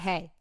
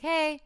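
First: The greeting sounds curt and harsh. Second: The greeting sounds neutral and mild.

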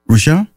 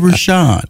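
First: The name is said hesitantly, rising like a question. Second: The name is said firmly, falling like a statement. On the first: He is unsure of his own name. The speaker calls it wrong. "Don't say it like you're guessing" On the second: He has decided on his name. The speaker calls it right. "Say Rushion"

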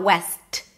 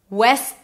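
First: The final T is clearly released. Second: The final T is not clearly released. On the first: The speaker calls it wrong. "It's not west" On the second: The speaker calls it right. "So I don't really pronounce the T"

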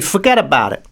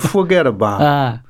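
First: The pitch falls toward the end. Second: The pitch rises toward the end. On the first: "So one goes down" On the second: "and one goes up"

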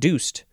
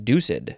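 First: The word is said as one syllable. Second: The word is said as two syllables. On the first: The speaker calls it wrong. "I would have thought deuced" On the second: The speaker calls it right. "It is two syllables"

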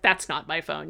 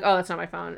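First: It is said intensely and pointedly. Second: It is said casually and offhand.

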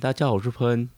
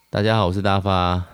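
First: It is said higher and more nasal, imitating 喷. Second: It is said in his own natural voice.

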